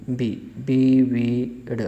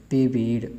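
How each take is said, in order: First: विविड said bi-bid with a b sound, slowly. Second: विविड said bibid at normal pace; quick b version. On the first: Teacher showing विविड said with b sounds. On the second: Teacher repeating विविड with b sounds. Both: Shown as a demonstration. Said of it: "बे की आवाज़ देता है".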